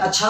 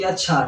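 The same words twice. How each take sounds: First: अच्छा rising at the end in mild surprise; surprised. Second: Said in the usual way. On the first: Shown as a demonstration. Teacher showing the second use of the word, surprised. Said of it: "surprise होने के लिए बोलते हैं". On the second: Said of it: "positive देखने के लिए".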